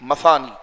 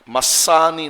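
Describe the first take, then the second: First: The middle consonant is a soft th sound. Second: The middle consonant is a plain s sound. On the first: The speaker calls it right. "था के साथ है" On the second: The speaker calls it wrong. "मसानी नहीं"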